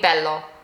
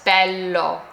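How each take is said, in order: First: The L sound is short and quick. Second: The L sound is held noticeably longer. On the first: The speaker calls it wrong. "if this were to have one L, it would be bello" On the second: The speaker calls it right. "it has two L's, so it's bello"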